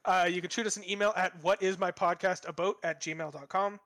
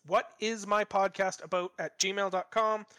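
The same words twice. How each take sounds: First: Said in the usual way. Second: Each word of "what is my podcast about at gmail dot com" spelled out slowly; slow, careful repeat of the address; slow and clear. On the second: Shown as a demonstration. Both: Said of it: "That's what is my podcast about at gmail dot com".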